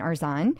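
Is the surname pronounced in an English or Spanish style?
English. The surname is said with plain English sounds. This is the familiar way the name is said. "Instead of being Robin Arzon"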